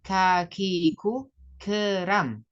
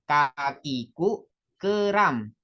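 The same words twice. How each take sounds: First: The k sounds are released with breath. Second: The k sounds are released without breath. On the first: The speaker calls it right. "kalau pakai hamas" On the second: The speaker calls it wrong. "itu belum hamas"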